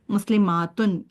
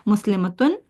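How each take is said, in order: First: मुस्लिमातुन with a long drawn aa before tun; plural form. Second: मुस्लिमतुन said short, no long aa before tun; clipped singular मुस्लिमतुन; singular form. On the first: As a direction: stretch the aa in मुस्लिमातुन. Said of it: "इसको मुस्लिमातुन नहीं बोलेंगी". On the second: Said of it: "ये जो मुस्लिमतुन है". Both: Shown as a demonstration.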